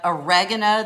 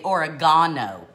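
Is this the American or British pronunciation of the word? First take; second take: American; British. First: It is said with the American pronunciation. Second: It is said with the British pronunciation. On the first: "Instead of oregano" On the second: "in the UK, they say oregano"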